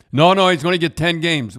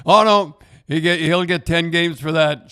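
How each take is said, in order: First: Raised, louder mock-insistent no no; insistent quote. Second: Mock alarmed shout. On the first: Retelling Ron McLean on air, loud and insistent. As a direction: push the no no hard and loud, sure of it. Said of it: "And he said". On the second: Mocking Ron's on-air prediction.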